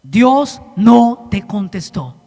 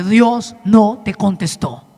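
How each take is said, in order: First: Even slower "Dios no te contestó", NO hit hard and falling; repeated for emphasis, "no" stressed. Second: Slow, weighty "Dios no te contestó" with NO stressed and falling; slow emphatic. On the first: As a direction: drag out "Dios no te contestó", leaning on "no". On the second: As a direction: lean on "no" in "Dios no te contestó", slowly. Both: Shown as a demonstration. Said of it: "¿Lo escuchó o se lo vuelvo a decir?".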